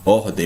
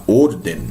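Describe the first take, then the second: First: "ordem" with an open O and nasal ending; Portuguese open O. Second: "orden" with a closed O and tapped R; closed Spanish O. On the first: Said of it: "Eu não vou falar ordem". ("ordem" com O aberto, à portuguesa) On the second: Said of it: "sempre esse somzinho fechado". ("orden" com O fechado, à espanhola) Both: Shown as a demonstration.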